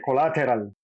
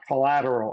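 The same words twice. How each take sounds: First: The T sound is pronounced fully and clearly. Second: The T sound is softened, not fully pronounced. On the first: The speaker calls it wrong. "I sound out the T's" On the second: The speaker calls it right. "instead of"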